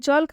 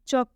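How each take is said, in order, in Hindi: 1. K से पहले L ध्वनि का उच्चारण होता है। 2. K से पहले L ध्वनि साइलेंट है। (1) "ये चौल्क गलत है" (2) "चौक पढ़ेंगे हम इसे"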